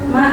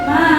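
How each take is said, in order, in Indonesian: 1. Vokal panjangnya tepat dua ketukan. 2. Vokal panjangnya jauh lebih dari dua ketukan.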